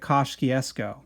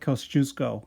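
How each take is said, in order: First: The name is said with an Americanized pronunciation. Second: The name is said with a Polish-style pronunciation. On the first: The speaker calls it wrong. "everybody there pronounces it Kościuszko" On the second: The speaker calls it right. "It's like Kosciuszko or something like that"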